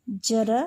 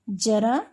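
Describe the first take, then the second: First: जरा said with a plain j, like jara; जरा without the dot, as j. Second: जरा said with a buzzing z, like zara; ज़रा, the dotted z. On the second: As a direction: start जरा with a z sound. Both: Shown as a demonstration. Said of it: "ज में इधर क्या लगाएंगे? डॉट लगाएंगे".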